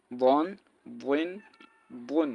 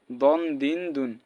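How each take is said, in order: First: বন, বইন, বুন with a heavy, rounded Arabic d; full, thick emphatic start on বন, বইন, বুন; thick dad. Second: দন, দিন, দুন with plain dental d; thin d, tongue on teeth for দন, দিন, দুন; mistaken light d. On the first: Teacher correcting the mistake, বন, বইন, বুন said thick. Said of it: "এটা মোটা করে". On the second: Teacher showing what many say, দন, দিন, দুন with light d. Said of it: "অনেকে বলে". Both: Shown as a demonstration.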